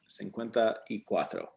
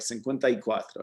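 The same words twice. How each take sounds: First: Each word is said separately and distinctly. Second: The words run together like one word.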